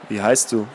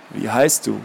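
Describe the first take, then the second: First: Put-on lower, rustling old man asking; rustling old man's voice. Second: Put-on lower, rustling old man repeating; rustling old man's voice. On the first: Mysterious old man questioning Anna, rustling voice. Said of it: "mit seiner raschelnden Stimme". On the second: Old man asking Anna again, rustling voice. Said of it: "fragte der alte Mann erneut mit seiner raschelnden Stimme".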